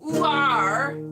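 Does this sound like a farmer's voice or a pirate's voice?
farmer. It is said in a farmer's voice.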